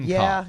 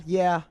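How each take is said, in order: Both takes have the same delivery.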